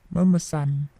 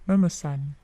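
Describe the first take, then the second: Both takes have the same delivery.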